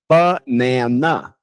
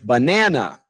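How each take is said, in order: First: All syllables get equal stress. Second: The stress is on the second syllable. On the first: This is the Portuguese way of saying it. "we give equal play time to each syllable" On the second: This is the English way of saying it. "the second one, the na, is the important one"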